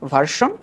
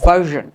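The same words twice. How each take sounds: First: The middle consonant is a voiceless hissing sound. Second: The middle consonant is a voiced buzzing sound. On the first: The speaker calls it wrong. "Not ভার্সন" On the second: The speaker calls it right. "উচ্চারণটা একটু খেয়াল করো"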